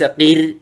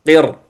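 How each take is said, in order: First: قر with a light, thin ra; wrong thin r. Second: قر with a thick, full-mouthed ra; correct heavy r. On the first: Teacher showing the wrong قر to students, thin ra. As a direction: say قر with the ra softened, as a mistake. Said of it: "ليس قر". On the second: Teacher demonstrating correct قر from قرطاس, heavy ra. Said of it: "تقول قرطاس، قر، ليس قر". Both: Shown as a demonstration.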